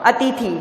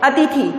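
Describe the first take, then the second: Both takes have the same delivery.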